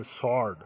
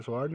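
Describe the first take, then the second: First: स्वॉर्ड said "sord", no w sound; silent w. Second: स्वॉर्ड with the w sounded; wrong pronunciation. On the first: Teacher giving students the correct reading, w silent. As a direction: say स्वॉर्ड as "sord", s straight into the vowel. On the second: Teacher warning students off the spelt reading, w sounded. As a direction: say स्वॉर्ड as spelt, "sword" with an audible w. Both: Shown as a demonstration. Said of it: "इसे स्वॉर्ड नहीं".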